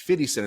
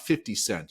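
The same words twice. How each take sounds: First: The middle of 'fifty' is a soft D sound. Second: The middle of 'fifty' is a clear F sound. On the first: The speaker calls it right. "It's fifty Cent" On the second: The speaker calls it wrong. "It's not fifty Cent"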